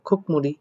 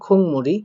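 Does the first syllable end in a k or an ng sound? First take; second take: k; ng. First: The first syllable ends in a k sound. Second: The first syllable ends in an ng sound. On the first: "এটার উচ্চারণটা আসলে হওয়ার কথা খুকমুড়ি" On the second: "এটার উচ্চারণ আমি করলাম কি খুংমুড়ি"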